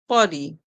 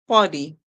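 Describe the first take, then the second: Both takes have the same delivery.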